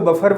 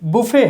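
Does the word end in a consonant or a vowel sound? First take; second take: consonant; vowel. First: The word ends with a consonant sound. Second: The word ends with a vowel sound. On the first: The speaker calls it wrong. "ये wrong pronunciation है" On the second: The speaker calls it right. "टी silent रहता है, इसका correct pronunciation बुफे है"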